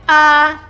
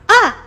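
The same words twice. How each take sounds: First: It is said flat, without any emotion. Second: It is said as if surprised. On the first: "The one with the flat line, uh you must say without any emotion" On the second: "You just go in uh uh surprise"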